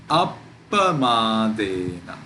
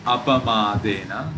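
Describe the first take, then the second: First: Appamadena slow, with a long stop after ap; pause on double consonant. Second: Appamadena run through as a-pamadena, no stop; single consonant. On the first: Teacher showing the right reading, appamadena with the p held. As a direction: get stuck on the pp of appamadena. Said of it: "It is appamadena". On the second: Teacher showing the wrong reading, appamadena without a held p. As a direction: say appamadena with one short p. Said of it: "Not appamadena". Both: Shown as a demonstration.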